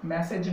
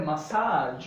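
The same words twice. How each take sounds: First: ম্যাসেজ as "MASS-ej", short second syllable; mispronunciation. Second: মাসাজ as "ma-SAAAJ", second vowel stretched long; correct pronunciation. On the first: Teacher citing the form to avoid, mispronunciation. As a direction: say ম্যাসেজ with flat a first and short e after. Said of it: "ম্যাসেজ নয়". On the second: Teacher stating the actual pronunciation of the word, correct pronunciation. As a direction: draw out the saa in মাসাজ. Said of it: "actual উচ্চারণ হবে মাসাজ". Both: Shown as a demonstration.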